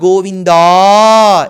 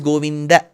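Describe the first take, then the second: First: The final a is lengthened. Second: The final a is short. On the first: The speaker calls it wrong. "It's not Govinda" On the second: The speaker calls it right. "it is Govinda"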